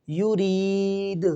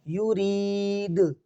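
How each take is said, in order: No difference in how they are said.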